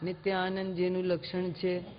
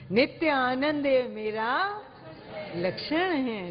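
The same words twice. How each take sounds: First: Low, soft, lifeless rattle; dull rote reading. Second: Gentle, heartfelt, savoured; felt delivery. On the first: Teacher mocks a lifeless, rote delivery. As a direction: mumble it like a rote line. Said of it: "ऐसे नहीं बोलना". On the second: Teacher models saying it with inner joy. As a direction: show the bliss as you say it. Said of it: "आप ऐसे बोलिए नित्य आनंद को दिखाते हुए". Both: Shown as a demonstration.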